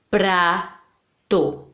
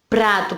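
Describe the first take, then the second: First: The word is said slowly, syllable by syllable. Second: The word is said at a normal pace.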